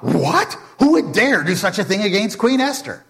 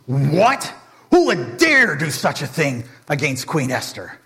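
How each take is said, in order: First: Haman's startled echo, higher and louder; shocked Haman. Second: Mock furious. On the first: Acted. Haman echoing the king in fake outrage, shocked. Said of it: "Haman is shocked". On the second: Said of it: "Xerxes is furious".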